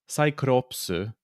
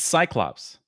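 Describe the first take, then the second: First: The word is said with a Japanese pronunciation. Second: The word is said with an English pronunciation. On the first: The speaker calls it wrong. "It's not" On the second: The speaker calls it right.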